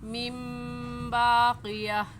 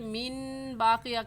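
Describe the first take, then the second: First: The first word ends with a nasal m sound. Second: The first word ends with a plain n sound. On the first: The speaker calls it right. "सही है" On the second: The speaker calls it wrong. "कहना गलत होगा"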